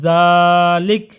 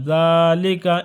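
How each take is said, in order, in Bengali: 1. শব্দটি শেষে হরকতবিহীন ব্যঞ্জন দিয়ে শেষ হয়। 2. শব্দটি শেষে স্বরবর্ণ দিয়ে শেষ হয়।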